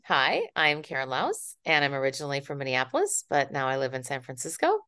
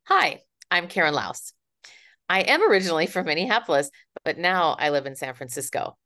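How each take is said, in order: First: The name runs straight on into the next phrase. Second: The speaker comes to a full stop after the name.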